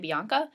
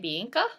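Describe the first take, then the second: First: The name is said with an American accent. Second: The name is said with a New Zealand accent. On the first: "in America we say Bianca" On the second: "here they say Bianca"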